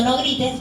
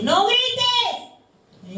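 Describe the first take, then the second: First: Said in the usual way. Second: High, yelled no grites; mock shout. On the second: Preacher imitating a parent yelling at a child, mock shout. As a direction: snap at the kid like a parent.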